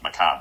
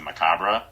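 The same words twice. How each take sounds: First: The final R and E are left silent. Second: The final R and E are pronounced. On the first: The speaker calls it right. "the R and E are silent" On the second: The speaker calls it wrong. "I had always pronounced it"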